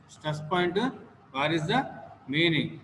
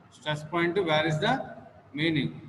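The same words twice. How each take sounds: The two takes are said the same way.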